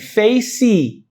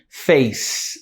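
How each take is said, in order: First: The word ends with an added i vowel. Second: The word ends on an S sound. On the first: "A gente fala assim" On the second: "A gente não termina com esse sonzinho de S"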